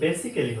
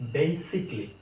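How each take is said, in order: First: The first syllable has a short 'eh' vowel. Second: The first syllable has an 'ay' vowel. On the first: The speaker calls it wrong. "এটা actually বেসিক্যালি হবে না" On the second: The speaker calls it right. "এটা হবে বেসিকলি"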